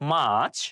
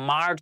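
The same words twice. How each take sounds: First: The r sound is silent. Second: The r sound is pronounced. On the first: The speaker calls it right. "আর হচ্ছে silent word হিসেবে থাকবে, আমরা আর উচ্চারণ করব না" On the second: The speaker calls it wrong. "আমরা মার্চ বলে থাকি"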